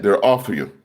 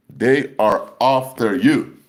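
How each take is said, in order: First: Said in the usual way. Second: "They are after you" stretched slow, word by word; emphatic warning. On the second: Real, not acted. Preacher warning believers, "They are after you" slow and emphatic.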